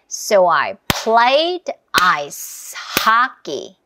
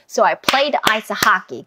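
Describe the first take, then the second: First: It is said at a slow pace. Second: It is said at a fast pace.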